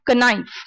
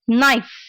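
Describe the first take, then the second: First: The word starts with a pronounced K sound. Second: The word starts with an N sound, no K. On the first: The speaker calls it wrong. "not knife" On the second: The speaker calls it right. "Next one is knife"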